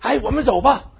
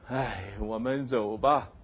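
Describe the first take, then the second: First: It is said urgently, with alarm. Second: It is said reluctantly, with resignation. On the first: Danger is coming and they must flee quickly. "那是表明这火要烧起来了，我们赶快跑的" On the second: They are leaving only because they have no choice. "很不得已的"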